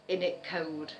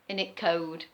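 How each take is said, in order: No difference in how they are said.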